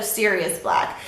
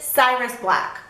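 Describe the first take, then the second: First: The first name sounds like serious. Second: The first name sounds like Cyrus. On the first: The speaker calls it right. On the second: The speaker calls it wrong.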